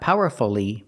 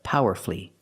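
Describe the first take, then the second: First: It has four syllables with the middle vowel pronounced. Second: It has three syllables with the middle vowel dropped. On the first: The speaker calls it wrong. "Not powerfully" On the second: The speaker calls it right. "but powerfully"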